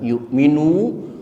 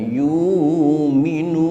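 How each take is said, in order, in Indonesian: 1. Hamzah (glottal stop) muncul setelah suku kata pertama. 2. Vokal panjang menggantikan hamzah. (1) "Kalimat yu'minu" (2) "boleh diganti dengan yu'minu"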